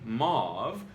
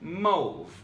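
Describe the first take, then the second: First: The vowel does not rhyme with grove. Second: The vowel rhymes with grove. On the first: "most people say" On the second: "as in rhymes with grove"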